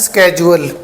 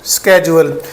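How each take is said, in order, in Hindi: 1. यह 'sk' से शुरू होता है और इसमें 'j' की ध्वनि है। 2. यह 'sk' से शुरू होता है और इसमें 'j' की ध्वनि है।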